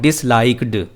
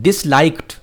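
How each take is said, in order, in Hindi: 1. अंतिम ध्वनि d की आवाज़ है। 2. अंतिम ध्वनि t की आवाज़ है। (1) "नॉट" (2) "लेकिन इसको पढ़ना टी है।"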